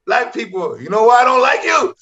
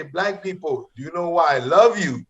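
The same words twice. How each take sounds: First: Retold defiant joke opener, rising louder; mad, insistent. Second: Gentler suggested opener. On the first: Angry comic restarting his joke over the boos, insistent. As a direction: push the line at a booing crowd. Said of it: "So I was so mad". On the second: Retold or imitated. Host coaching comic on a friendlier opener, gently suggested. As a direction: imitate a host coaching a kinder delivery. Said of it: "Start it that way".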